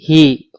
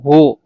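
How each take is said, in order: First: The vowel after h is i. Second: The vowel after h is u. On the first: "bisa kasroh" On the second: "bisa dhammah"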